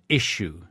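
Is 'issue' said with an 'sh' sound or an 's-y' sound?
sh. The middle sounds like 'sh', like a sneeze. This is the pronunciation punished at school. The speaker calls it wrong. "we used to get smacked at school if we said issue. You are not sneezing"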